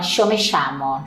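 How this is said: The y and ll sound like English sh. This is how Buenos Aires says it. "na Argentina, Buenos Aires... Eles vão falar com show"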